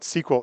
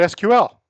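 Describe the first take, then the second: First: It is said as the single word sequel. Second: It is said as three separate letters. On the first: "S E Q U E L" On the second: "It's an initialism, not an acronym"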